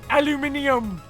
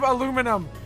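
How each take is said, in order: First: It is said the British way, five syllables. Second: It is said the American way, four syllables. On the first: The speaker calls it wrong. "why the fuck did they call it aluminium" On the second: The speaker calls it right. "instead of aluminum"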